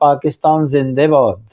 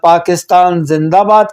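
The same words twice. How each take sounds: First: Iranian Tehrani accent, favoring the 'e' vowel. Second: Afghan Dari accent, favoring the open 'a' vowel. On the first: "अगर एक ईरानी होगा तो वो कहेगा" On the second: "जब एक अफ़गानी कहेगा"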